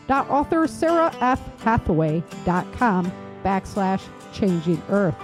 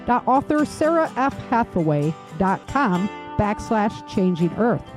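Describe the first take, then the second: No difference in how they are said.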